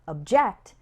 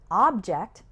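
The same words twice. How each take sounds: First: The stress is on the second syllable. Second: The stress is on the first syllable. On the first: It means to disagree with an idea. "is a verb" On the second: It names a thing or an item. "that's a noun"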